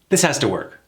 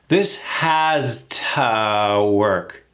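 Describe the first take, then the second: First: The sentence is said at fast, natural speed. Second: The sentence is said slowly. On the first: "Faster now, in real time" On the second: "Slow that down"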